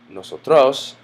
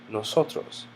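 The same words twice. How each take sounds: First: The stress falls away from the second-to-last syllable. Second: The stress falls on the second-to-last syllable. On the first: The speaker calls it wrong. "it's not nosotros" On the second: The speaker calls it right. "but rather nosotros, because it ends in the letter S"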